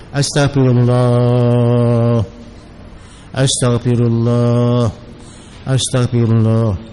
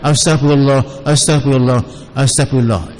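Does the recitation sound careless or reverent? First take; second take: reverent; careless. First: It is said reverently, as a sincere plea. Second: It is said carelessly, without reverence. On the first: It truly asks for forgiveness. The speaker calls it right. "minta ampun pada Allah Ta'ala" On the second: It shows no manners. The speaker calls it wrong. "Jangan astagfirullah astagfirullah astagfirullah, itu tidak ada adab"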